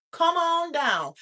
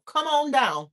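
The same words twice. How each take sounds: First: Drawn out. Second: Said in the usual way. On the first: Acted. Hype invite, drawn-out repeat.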